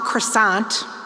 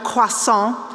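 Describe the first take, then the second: First: It is pronounced with English sounds. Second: It is pronounced with French sounds. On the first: The speaker calls it wrong. "it's not croissant" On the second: The speaker calls it right. "the proper pronunciation of croissant"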